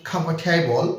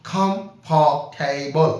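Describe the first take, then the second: First: Said in the usual way. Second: "খামফার্টেবল" very slow, broken into separate syllables. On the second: Shown as a demonstration. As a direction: break "খামফার্টেবল" up, a pause after each syllable. ("খামফার্টেবল" ধীরে ধীরে, সিলেবলে ভেঙে ভেঙে বলা) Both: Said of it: "syllable ভেঙে নিচ্ছি".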